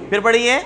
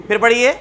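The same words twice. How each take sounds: The two takes are said the same way.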